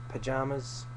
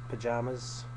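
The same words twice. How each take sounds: No difference in how they are said.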